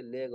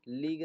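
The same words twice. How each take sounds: First: लेग with an eh sound; short-e vowel. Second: लीग with a long ee sound; wrong long-ee vowel. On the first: Teacher correcting the reading of leg, लेग with eh. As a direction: say लेग with eh, not ee. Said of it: "बल्कि लेग और सेल पढ़ रहे हैं". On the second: Teacher showing learners a misreading, लीग with long ee. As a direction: say लीग with ee instead of eh. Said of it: "ई की तरह नहीं कर रहे हैं". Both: Shown as a demonstration.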